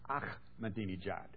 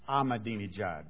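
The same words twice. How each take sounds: First: The name is said as Persian speakers say it. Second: The name is read as English spelling suggests. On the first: "the Farsi language that the Persian people speak" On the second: "when you look at it phonetically"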